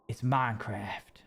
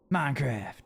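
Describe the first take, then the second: First: Minecraft drawn out slowly, each half weighed; slow, deliberate Minecraft. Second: Said in the usual way. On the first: Shown as a demonstration. Player breaking down the game's name: slow, deliberate. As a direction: spell out Minecraft syllable by syllable. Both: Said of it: "That's mine. That's craft".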